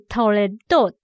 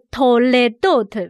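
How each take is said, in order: First: The word is said more lightly and softly. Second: The word is said clearly and more strongly. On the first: The noun is joined to a following noun. "组合字形是toledot 是比较轻一点的嘞" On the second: The noun stands on its own. "一般字形的toledot 会比较的明显"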